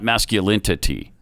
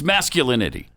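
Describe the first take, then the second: First: The word is said with an extra t sound. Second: The word is said without an extra t sound. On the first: The speaker calls it wrong. "not masculinity" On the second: The speaker calls it right. "It's masculinity"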